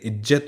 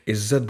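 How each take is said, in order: First: The middle consonant is a plain j sound. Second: The middle consonant is a z sound. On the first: The speaker calls it wrong. "इज्जत नहीं बोलेंगे" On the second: The speaker calls it right. "इज्जत बोलेंगे"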